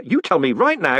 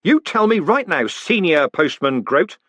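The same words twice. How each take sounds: First: Said in the usual way. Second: Higher, louder snapped order, "Senior" slow; sharp command to the old man. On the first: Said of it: "What went on here?". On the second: Acted. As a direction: bark the promotion at him. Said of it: "he snapped".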